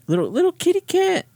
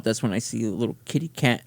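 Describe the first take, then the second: First: Put-on much higher, cooing baby talk; cutesy kitty voice. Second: Said in the usual way. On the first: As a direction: coo it like talking to a kitten. Repeats in cutesy high voice.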